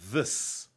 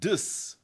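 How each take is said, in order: First: The word begins with a soft th sound. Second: The word begins with a hard d sound. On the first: The speaker calls it right. "instead of this" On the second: The speaker calls it wrong. "they are saying dis instead of this"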